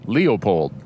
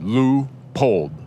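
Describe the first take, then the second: First: The first syllable sounds like Leo, two vowels. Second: The first syllable has a long oo sound. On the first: It names the conservationist. "is like Leo, the lion" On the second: It names the optics company. "is like L U, like a long U"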